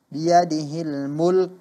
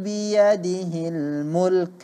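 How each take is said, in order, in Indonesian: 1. Huruf k di akhir dihilangkan tanpa hembusan napas. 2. Huruf k di akhir berakhir dengan sedikit hembusan napas. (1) "seolah-olah tidak ada huruf kaf di belakangnya" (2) "kita tunjukkan sifat daripada huruf kaf tersebut"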